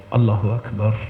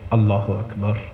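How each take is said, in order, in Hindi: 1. इसे धीरे और ध्यान से बोला जाता है, जैसे बातचीत हो। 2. इसे धीरे और ध्यान से बोला जाता है, जैसे बातचीत हो।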